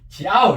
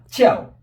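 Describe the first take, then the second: First: The emphasis falls late, on the middle vowel. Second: The emphasis falls early, with a forceful onset. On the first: The speaker calls it wrong. "이렇게 하면 안 되죠" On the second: The speaker calls it right. "앞으로 이동해서"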